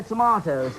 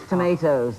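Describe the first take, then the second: First: "tomatoes" said as tuh-MAH-toze; broad AH in the middle of "tomatoes"; British "tomatoes". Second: "tomatoes" said as tuh-MAY-toze; long AY in the middle of "tomatoes"; American "tomatoes". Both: Shown as a demonstration. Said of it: "This is what we say".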